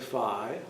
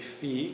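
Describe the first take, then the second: First: The vowel is not pronounced as 'ee'. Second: The vowel is pronounced as an 'ee' sound. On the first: This is another common way people say it. "some people say phi" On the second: This follows the Latin way of reading the letter. "The Latin pronunciation will be phi because the I is pronounced E"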